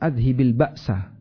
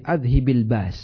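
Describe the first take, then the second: First: The phrase ends with a vowel after the s. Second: The phrase ends on the s with no vowel. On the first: The speaker calls it wrong. "bukan adhibil ba'sa" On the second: The speaker calls it right. "Cara baca yang benar"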